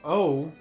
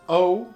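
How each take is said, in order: First: It sounds taken aback, struck by someone's looks. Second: It sounds puzzled, as if questioning the request.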